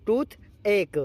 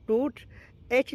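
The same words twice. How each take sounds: First: टूथ एक said like tooth-ache, ending in ache; टूथ एक as one word, toothache; right way, toothache. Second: टूथ एच said as tooth plus the letter H; टूथ एच as tooth-aitch, the mistake to avoid; wrong way, tooth H. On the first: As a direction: say टूथ एक with an "ache" sound, not H. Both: Shown as a demonstration. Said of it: "एच नहीं पढ़ेंगे".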